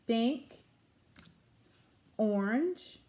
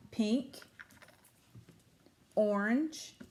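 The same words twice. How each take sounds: The two takes are said the same way.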